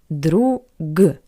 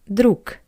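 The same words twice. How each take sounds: First: The word ends with a voiced g sound. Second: The word ends with a voiceless k sound. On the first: The speaker calls it wrong. "we see the letter G" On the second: The speaker calls it right. "but we pronounce it as"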